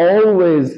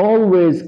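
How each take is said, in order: The two takes are said the same way.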